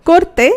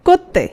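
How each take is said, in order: No difference in how they are said.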